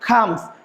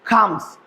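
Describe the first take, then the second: First: The first consonant has a strong puff of air. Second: The first consonant has a strong puff of air.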